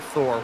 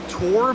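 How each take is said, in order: First: The name begins with a TH sound. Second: The name begins with a plain T sound. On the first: The speaker calls it wrong. "I called him Thor" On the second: The speaker calls it right. "his name's pronounced Tor"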